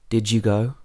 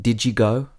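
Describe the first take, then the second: The two takes are said the same way.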